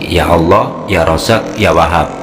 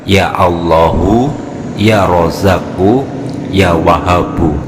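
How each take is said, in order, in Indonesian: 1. Harakat pendek di akhir itu dihilangkan. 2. Harakat pendek di akhir itu jelas dibaca. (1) "bukan dibaca dengan cara seperti ini" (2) "domanya harus diperjelas"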